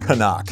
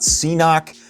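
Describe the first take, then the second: First: It is said as 'ca-nuck'. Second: It is said as 'see-knock'. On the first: The speaker calls it right. "It is Canuck" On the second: The speaker calls it wrong. "It is not C-Knock"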